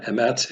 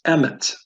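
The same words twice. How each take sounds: First: Emet said em-ET, weight on the end; stress on last syllable. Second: Emet said EM-et, first syllable higher, second light; stress on first syllable. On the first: Teacher showing the wrong way, emet stressed on ET. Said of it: "So it's not emet". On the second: Teacher giving the correct way, emet stressed on EM. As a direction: punch the opening syllable of emet. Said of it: "it's emet". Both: Shown as a demonstration.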